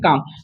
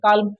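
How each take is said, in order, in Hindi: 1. L की आवाज़ नहीं आती। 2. L की आवाज़ साफ़ आती है। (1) "एल को हम नहीं पढ़ देंगे" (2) "तो काल्म हम पढ़ेंगे तो ये मेरा प्रोनाउंसिएशन गलती हो जाएगा"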